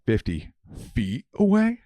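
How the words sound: The pitch rises at the end like a question. The speaker calls it wrong.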